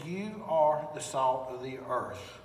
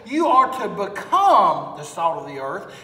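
First: "are" stressed, lower and softer, slow; firm and quiet. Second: Become leaned on in a rising, questioning line; stress on become. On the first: Preacher correcting to Jesus' words, quiet firm stress on are. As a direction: set "are" down with quiet certainty. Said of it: "No, he said". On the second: Preacher showing what Jesus did not say, stress on become. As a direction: lean on "become" as the wrong version. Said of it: "Jesus did not say". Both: Shown as a demonstration.

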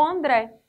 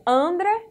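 First: "André" stressed on the final syllable with open é; pronúncia com acento. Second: "André" stressed on the first syllable, closed final e; sílaba tônica trocada. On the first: ("André" com o "é" final aberto e tônico) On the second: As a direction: say "André" as ANdre, as if unaccented. ("André" com tônica no "An") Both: Shown as a demonstration. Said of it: "o correto na pronúncia, se seria".

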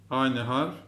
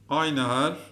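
No difference in how they are said.

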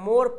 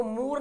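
First: मोर with a clear o, "mor"; correct unstretched reading. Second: मोर misread as "moor" with oo; wrong stretched reading. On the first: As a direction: land firmly on the o in मोर. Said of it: "क्या पढ़ रहे हैं?". (मोर को ओ से पढ़ें) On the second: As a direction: turn the o of मोर into oo. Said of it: "इसको मोर नहीं पढ़ रहे हैं". (मोर को "मूर" बोलें) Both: Shown as a demonstration.

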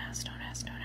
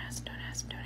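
The two takes are said the same way.

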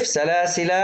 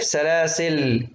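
First: سلاسل ending in long "laa"; waqf with alef. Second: Slow سلاسل closing on bare "l"; still lam, no alef. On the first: Teacher showing the first stopping option, long alef on سلاسل. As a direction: stop on سلاسل holding final "aa". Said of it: "وفي الوقف تقرأ بالألف". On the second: Teacher showing the second stopping option, سلاسل ending on "l". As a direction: stop سلاسل on a silent-vowel lam. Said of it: "بإسكان اللام". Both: Shown as a demonstration.

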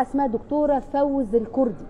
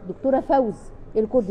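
First: Said in the usual way. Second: Weight on فوز in دكتوره فوز الكردي, falling at the end; stress on the name. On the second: Shown as a demonstration. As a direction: repeat the name so it sticks. (تأكيد على كلمة فوز في الاسم)

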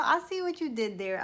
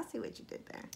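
First: Said in the usual way. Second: Whisper. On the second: Real, not acted. Repeated line, now whispered.

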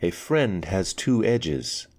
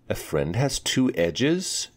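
First: Said in the usual way. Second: Higher questioning echo of the words; puzzled repeat. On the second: Acted. Girl repeating a riddle back, higher and puzzled. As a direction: Anika echoes back, rising in puzzlement. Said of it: "she repeated".

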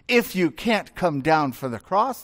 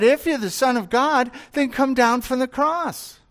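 First: Said in the usual way. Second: Higher, jeering taunt; mocking taunt. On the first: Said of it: "therefore, you must not be". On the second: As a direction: sneer it up at the man on the cross. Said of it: "And so they mocked him".

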